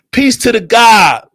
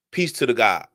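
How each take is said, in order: First: High, slow, shouted salute; loud hailing. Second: Low, soft greeting; subdued salute. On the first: Speaker saluting the God, loud high hail. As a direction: call it out loud and drawn out. Hails someone, then repeats it subdued. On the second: Speaker saluting the God, low and subdued. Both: Real, not acted.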